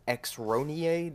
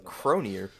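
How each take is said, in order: First: The name begins with an 'eks' sound. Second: The name begins with a 'k' sound. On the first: The speaker calls it wrong. "you call that X-Ronier, the fuck?" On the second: The speaker calls it right. "It's Cronier"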